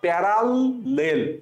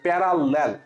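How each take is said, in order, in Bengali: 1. শব্দটি বানান অনুযায়ী paral-lel করে ভাগ করে বলা হয়েছে। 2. শব্দটি স্বাভাবিকভাবে সহজভাবে বলা হয়েছে।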